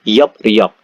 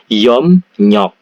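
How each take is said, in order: First: The syllables join with a p then r sound. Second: The syllables join with an m then n sound. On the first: "Yop riok ini dibaca Yop nyok" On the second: "Jadi Yop nyok ini dibaca Yom nyok"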